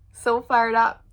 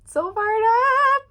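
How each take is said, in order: First: Said in the usual way. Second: High, loud, slow drawn-out excitement; hyped cry; fired up. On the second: Real, not acted. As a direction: stretch it out pumped. Excited repeat, higher.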